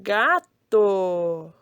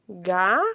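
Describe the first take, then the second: First: "gato" as one word with lengthened syllables; blended word, drawn out. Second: "Gato" split in two with a long pause; syllable by syllable. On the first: Teacher revealing the formed word, "gato" drawn out whole. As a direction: join and stretch the syllables of "gato". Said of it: "Formou a palavra". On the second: Teacher reading how it turned out, "Gato" syllable by syllable. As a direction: read "Gato" as separate syllables, first one rising. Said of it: "Vamos ler como ficou?". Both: Shown as a demonstration.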